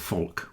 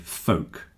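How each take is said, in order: First: The L sound is clearly pronounced. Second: The L sound is silent. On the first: "some people might say folk with an L" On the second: "but most people say folk"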